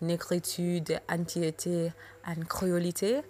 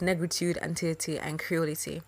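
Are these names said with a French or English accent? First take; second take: French; English. First: The names are said with a French accent. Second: The names are said with an English accent.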